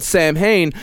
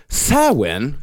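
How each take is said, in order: First: "Samhain" read as SAM-hayn; letter-by-letter English reading of "Samhain"; spelling pronunciation. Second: "Samhain" said slowly as SOW-in; drawn-out "Samhain" with a w in the middle; correct pronunciation. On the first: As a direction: say "Samhain" as written, sam plus hain. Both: Shown as a demonstration. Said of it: "which is spelled Samhain".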